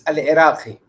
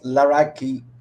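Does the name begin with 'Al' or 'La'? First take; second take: Al; La. First: The name is said as 'Al Iraqi', article separate. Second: The name is run together as 'Laraki'. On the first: This is the name's true underlying form. "but really it's Al Iraqi" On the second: This is the everyday Moroccan way of saying it. "my name is pronounced Laraki"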